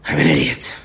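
The voice sounds regretful and self-blaming. The speaker regrets their own bad decision. "they're communicating a sense of like recognizing their own failing"

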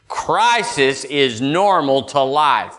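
It is said forcefully, with strong conviction.

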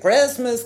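It is said with a Texan accent.

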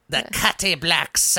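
It is said in an old lady's voice.

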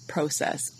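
It is said with a Canadian pronunciation. "depending if you're Canadian"

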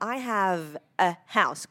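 The words are said separately.

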